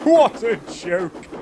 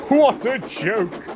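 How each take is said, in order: First: Slow high gloat repeated; chortling. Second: Slow, high gloating chortle; chortling. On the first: Gordon repeats his gloat, slow chortle. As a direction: chortle it again, relishing. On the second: Gordon gloats over Thomas's trouble, slow chortle. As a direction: savour the joke slowly. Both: A narrator's reading. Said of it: "he chortled".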